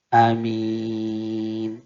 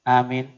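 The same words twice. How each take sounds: First: The first vowel is short, the second long. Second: Both vowels are said short. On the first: "pendek di depan, panjang di belakang"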